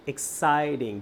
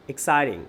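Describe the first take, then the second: First: exciting drawn out as ex-ci-ting; teacher's stretched-out exciting; syllable by syllable. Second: Said in the usual way. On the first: Shown as a demonstration. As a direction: break exciting into its sounds, ex, citing. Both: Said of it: "দুইটা sound".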